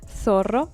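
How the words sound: The z sounds like th, tongue between teeth. This is how it is said in Spain. "it is pronounced the same way. Th"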